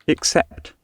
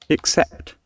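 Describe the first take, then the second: Both takes have the same delivery.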